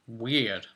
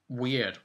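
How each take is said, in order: Both takes have the same delivery.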